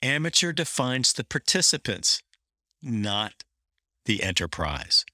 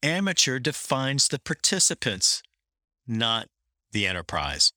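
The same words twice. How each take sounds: First: Pauses around "not"; deliberate, weighted second reading; reread with emphasis. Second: Long pause before not; read with a pause for emphasis. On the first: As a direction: stop before "not", then drop on "the enterprise". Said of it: "Let me read that again". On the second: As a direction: let "not" hang in a pause before "the enterprise". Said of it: "Pause for emphasis". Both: Shown as a demonstration.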